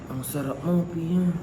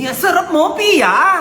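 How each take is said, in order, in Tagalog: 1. Parang malungkot siya. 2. Parang sarkastiko siya. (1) "Sad, sad, sad"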